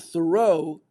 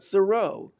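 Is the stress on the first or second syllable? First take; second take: second; first. First: The stress is on the second syllable. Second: The stress is on the first syllable. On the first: The speaker calls it wrong. "uttered the word the common way" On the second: The speaker calls it right. "it rests on the first syllable"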